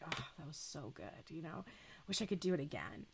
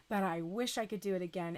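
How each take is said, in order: First: Soft, hushed, sated murmur; contented sigh. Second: Said in the usual way. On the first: Retold or imitated. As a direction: breathe it out like after a great meal. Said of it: "you just like". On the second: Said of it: "It was a long journey".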